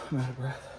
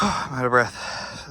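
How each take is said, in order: First: Winded sigh, softer words; tired from the work; out of breath. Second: Breathless sigh, slow words; winded after hard work; out of breath. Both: Real, not acted.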